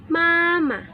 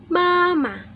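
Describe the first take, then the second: The two takes are said the same way.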